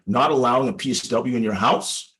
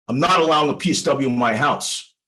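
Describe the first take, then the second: First: "Not allowing a P S W in your house?" said with a questioning rise at the end; upward inflection. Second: Said in the usual way. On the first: Shown as a demonstration. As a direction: echo the client's words back, tilting the end up. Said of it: "with an upward inflection". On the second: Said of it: "And then he said".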